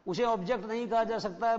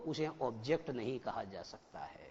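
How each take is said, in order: First: "उसे object नहीं कहा जा सकता है" repeated higher, with "कहा" pushed; emphatic repeat. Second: "उसे ऑब्जेक्ट नहीं कहा जा सकता है" said lower and softer, falling; quiet first statement. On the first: Teacher to students, repeating the rule with emphasis. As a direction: hammer the rule home, stressing "कहा". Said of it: "repeat for emphasis". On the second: Teacher to students, stating the rule quietly. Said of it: "repeated louder". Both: Shown as a demonstration.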